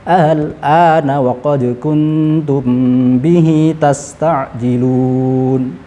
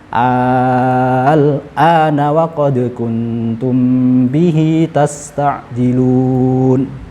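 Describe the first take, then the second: First: The second hamzah is softened, between hamzah and alif. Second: The second hamzah becomes a long drawn-out vowel. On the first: "Kita tashilkan dulu" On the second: "Kemudian kita ibdalkan"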